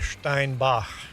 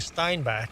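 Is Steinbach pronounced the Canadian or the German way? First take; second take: German; Canadian. First: It is pronounced the German way. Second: It is pronounced the Canadian English way.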